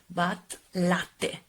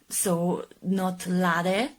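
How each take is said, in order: First: The T is held long and strong. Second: The T is short and soft. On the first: The speaker calls it right. "you have to double T your T" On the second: The speaker calls it wrong.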